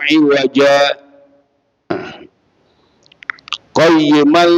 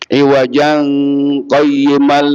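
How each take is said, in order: First: A brief stop without breath precedes qayyiman. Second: The words run together without any stop. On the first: The speaker calls it right. "karena kita baca sak saktah" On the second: The speaker calls it wrong. "kalau kita wasol nggak bisa kita baca ikhfa... Tapi enggak"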